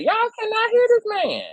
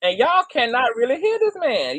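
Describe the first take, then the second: First: Much higher, strained disbelief; high-pitched incredulous whine; exasperated squeal. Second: Said in the usual way. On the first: Real, not acted. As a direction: squeak it out in frustration. Repeats complaint, rising to a squeal.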